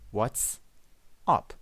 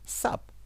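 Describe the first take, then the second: First: The greeting is said in full, two words. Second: The greeting is shortened to one syllable.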